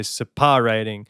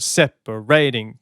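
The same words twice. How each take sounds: First: "separating" with stress pushed onto PAR, se-PAR-ating; "separating" said the wrong way, PAR stressed. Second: "Separating" slow, weight on SEP-a-ra-ting; "Separating" slow and even, first syllable leaning; stress on SEP. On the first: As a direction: lean on the middle of "separating". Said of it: "You don't say separating". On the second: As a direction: say "Separating" with the natural stress up front. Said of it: "that's the natural flow of that word". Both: Shown as a demonstration.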